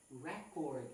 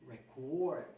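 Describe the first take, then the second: First: "record" said REH-cord, stress on the first syllable; noun stress REcord. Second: "record" said rih-CORD, stress on the second syllable; verb stress reCORD. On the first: Teacher showing the noun "record" as REH-cord. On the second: Teacher showing the verb "record" as rih-CORD. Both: Shown as a demonstration. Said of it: "the word record and".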